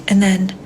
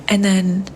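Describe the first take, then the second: No difference in how they are said.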